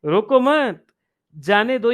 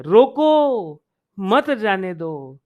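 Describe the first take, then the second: First: Quick रोको मत as one unit, break, then जाने दो; pause after मत. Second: रोको stretched long and loud, then मत जाने दो as one phrase; pause after रोको. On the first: Teacher contrasting two meanings for students, pause after मत. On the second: Teacher contrasting two meanings for students, pause after a drawn-out रोको. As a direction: hold रोको, break, then run मत into जाने दो. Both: Shown as a demonstration. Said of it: "देखो स्वर का कितना अंतर हो गया है".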